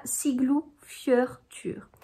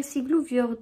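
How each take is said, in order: First: "Siglufjörður" slowly, broken into parts; "Siglufjörður" as Siglu, fyeur, tur, drawn out; guided pronunciation. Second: "Siglufjörður" run together, ending like French fjord; French-style "Siglufjörður" with an o as in fjord; former mispronunciation. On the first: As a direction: sound out "Siglufjörður" carefully, ending in "-tur". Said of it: "Et donc là". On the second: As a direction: say "Siglufjörður" quickly as Siglu-fiord. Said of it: "En fait, moi, je disais". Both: Shown as a demonstration.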